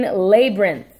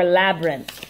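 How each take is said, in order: First: Labyrinth said LAY-brin, long a as in day; first pronunciation. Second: Labyrinth said LAB-rinth, short a as in cab; second pronunciation. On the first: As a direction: labyrinth starting LAY, stress on the first syllable. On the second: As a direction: labyrinth starting LAB, stress on the first syllable. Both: Shown as a demonstration. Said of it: "I've heard it pronounced both ways".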